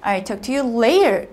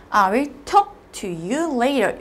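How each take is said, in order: First: "I'll talk to you later" with LATER drawn out and strongest; stress on LATER. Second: "I will talk to you later" slowly, broken after TALK; slow reading with TALK stressed and a clear break; chopped phrasing. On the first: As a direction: run through to a slow, stressed LATER. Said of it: "음절 단위로 강하게 발음한다면요". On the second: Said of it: "사실 끊어 읽으면". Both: Shown as a demonstration.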